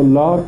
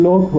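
First: لاک said with a long alef vowel; لاک with alef in place of waw; Persian-style pronunciation. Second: لوک said with a long waw vowel; لوک voiced as Arabs spell it, with waw; Arabic-style pronunciation. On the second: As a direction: say لوک with a rounded o/u-type vowel. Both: Shown as a demonstration.

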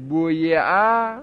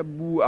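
First: بویعه said slowly as buyi'ah, the kasra kept; full form بویعه. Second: بوعه said as bu'ah, y and kasra dropped; short form بوعه. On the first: Teacher sounding out the full form بویعه for the class. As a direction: draw out بویعه, keeping every vowel. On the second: Teacher giving the students the shortened form بوعه. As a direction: say بوعه quickly, vowel gone. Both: Shown as a demonstration. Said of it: "کسره یا رو حذف کن".

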